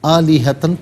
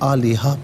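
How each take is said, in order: First: The word ends with a 'tan' sound. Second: The word ends with an open 'ha' vowel. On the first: The reader continues without stopping. "आलिहतन पढ़ेंगे" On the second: The reader stops at this word. "वफ़ की सूरत में आलिहा पढ़ा जाएगा"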